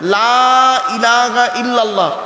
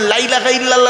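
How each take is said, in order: First: The vowel of the first word is drawn out long. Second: The vowel of the first word is clipped short. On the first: There is no god but Allah. The speaker calls it right. "লয়াকারে টান দেবেন, শুনে নিন" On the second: There certainly is a god besides Allah. The speaker calls it wrong. "হুটোপাটা করে যদি"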